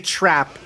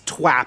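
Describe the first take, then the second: First: The word starts with a clear R sound. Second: The R is said like a W sound. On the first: "he doesn't say trap" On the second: "He's his his ice twap"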